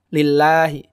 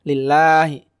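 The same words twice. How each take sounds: The two takes are said the same way.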